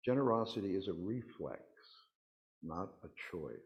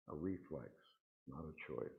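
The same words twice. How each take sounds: First: Said in the usual way. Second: A quiet repetition for emphasis; soft echo. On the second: Shown as a demonstration. Speaker to congregation, echoing the point softly.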